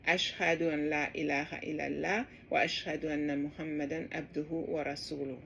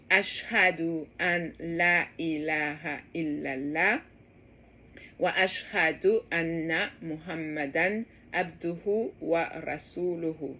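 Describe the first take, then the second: First: The phrase is spoken very fast. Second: The phrase is spoken slowly. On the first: "I said it super fast" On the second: "I'm going to repeat it slower"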